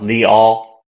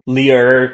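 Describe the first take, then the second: First: The syllable ends without any R sound. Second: The syllable ends with an R sound. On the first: The speaker calls it right. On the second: The speaker calls it wrong. "We never have this R sound. Get rid of it"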